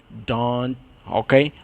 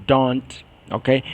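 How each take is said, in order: No difference in how they are said.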